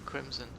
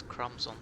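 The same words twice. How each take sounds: First: "Crimson" with an "ih" first vowel and a "z" sound; mispronounced name. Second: "Crumbs on" with an "uh" first vowel, as in crumb; corrected name. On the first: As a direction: say "Crimson" as CRIM-zun, like the colour. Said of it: "I've been calling you Crimson". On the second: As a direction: say "Crumbs on" as CRUMZ-on. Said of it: "and it's Crumbs on". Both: Shown as a demonstration.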